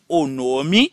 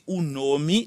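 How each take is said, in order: First: The first word sounds like 'o'. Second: The first word sounds like 'oo'. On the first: "qu'on soit ka prononcer le o" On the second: "qu'on soit ka prononcer le ou"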